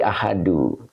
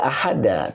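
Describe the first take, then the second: First: The word ends with a 'u' vowel. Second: The word ends with an 'a' vowel. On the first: The speaker calls it right. "tetapi ahadu" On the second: The speaker calls it wrong. "Makanya tidak ahada"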